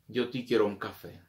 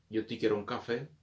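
No difference in how they are said.

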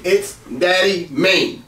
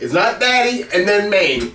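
First: Slow "Daddy Main" run together as one word, stress on "Daddy". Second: "Daddy" and "Main" said as two separate words with a gap; Daddy and Main split. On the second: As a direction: pause between "Daddy" and "Main", wrong way. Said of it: "Don't separate it". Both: Shown as a demonstration.

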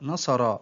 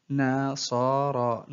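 First: Said in the usual way. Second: Very slow, each syllable drawn out separately; broken into syllables. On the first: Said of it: "تقطع الكلمة". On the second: Shown as a demonstration. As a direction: sound out the word syllable by syllable. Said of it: "تقطع الكلمة إلى حروف". (تقطيع الكلمة ببطء شديد مقطعًا مقطعًا)

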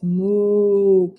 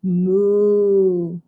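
First: Long, deep cow moo; really deep moo. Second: Sustained low cow moo; really low moo. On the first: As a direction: moo low like a farm cow. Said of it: "it's really deep". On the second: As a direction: hold a deep, even moo. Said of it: "moo really low". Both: Shown as a demonstration.

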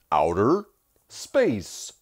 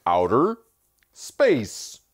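First: Kylo Ren voice. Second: Louder, higher second take of the villain voice; Kylo Ren voice. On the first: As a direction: imitate his sexy voice. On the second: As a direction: ham up the sexy voice. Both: Retold or imitated. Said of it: "Especially when he goes".

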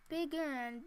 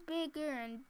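Both takes have the same delivery.

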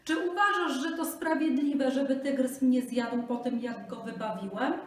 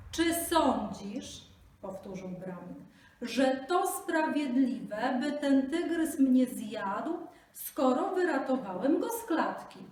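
First: High, loud plea; pleading Brahmin. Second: Slow, high, loud repeated plea; speaking slowly. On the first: Brahmin pleads with the jackal, high and loud. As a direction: beg at full pace. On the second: Brahmin repeats his plea to the jackal, very slowly. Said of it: "mówcie powoli". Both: Acted.

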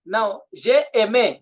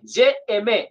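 First: "j'ai aimé" said slowly, syllables spaced out; slow French demo of "j'ai aimé"; slow model pronunciation. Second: Said in the usual way. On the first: Shown as a demonstration. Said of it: "j'aime, okay".

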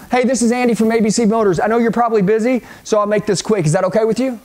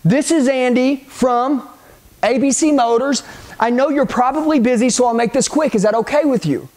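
First: Fast, run-together sales opener; brisk cold-call pitch, no gaps; quick script delivery. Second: Script laid out phrase by phrase, with pauses; deliberate script line. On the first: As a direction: roll straight through it without pausing. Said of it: "you roll with this quick". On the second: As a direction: show the line piece by piece. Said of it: "which is gonna be this". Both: Shown as a demonstration.

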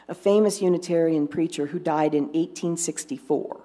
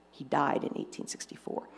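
First: Said in the usual way. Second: Whispered aside. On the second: Shown as a demonstration.

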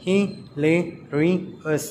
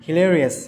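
First: Slow "hilarious" in four separate beats; syllable by syllable. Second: Said in the usual way. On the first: Shown as a demonstration. Teacher counting syllables for children, "hilarious" slowly split in four. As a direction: break "hilarious" into hi, la, ri, ous with pauses. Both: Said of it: "four syllables".

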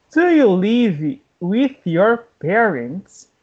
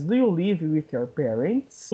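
First: Slow, carefully spaced question; slow teaching model. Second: Said in the usual way. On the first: Shown as a demonstration. English teacher modelling a question for learners, slowly. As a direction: stretch out "Do you live with your parents".

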